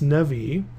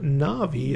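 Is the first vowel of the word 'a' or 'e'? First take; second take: e; a. First: The first vowel is a reduced 'e' sound. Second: The first vowel is a full 'a' sound. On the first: The speaker calls it right. "it's nevi" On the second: The speaker calls it wrong. "it's not navi"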